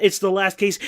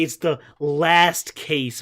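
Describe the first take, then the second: First: Said in the usual way. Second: "last" drawn out and emphasized; slow right down on "last"; stress on LAST. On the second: Real, not acted. Streamer reminds viewer, leaning slowly on "last".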